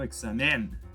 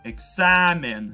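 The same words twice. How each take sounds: First: The stress falls on a syllable without a. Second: The stress falls on the syllable with a. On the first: The speaker calls it wrong. "y no examen" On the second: The speaker calls it right. "la palabra examen toma un acento en la A"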